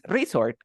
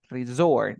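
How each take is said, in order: First: Resort said REE-sort, weight up front; stress on first syllable. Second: Resort said re-SORT, weight on the end; stress on final syllable. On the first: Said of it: "resort también es un centro turístico". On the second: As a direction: hit the second syllable of Resort. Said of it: "La fuerza de voz hasta el final". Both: Shown as a demonstration.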